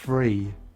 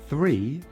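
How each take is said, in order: First: The word begins with an f sound. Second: The word begins with a th sound. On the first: "What I say is one, two, three. F, f, free" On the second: "I don't say"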